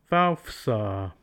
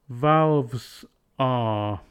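First: Valves is said with an f sound. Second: Valves is said with a v sound.

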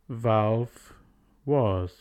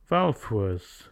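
First: Valve ends with a v sound. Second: The final v becomes f, linked forward.

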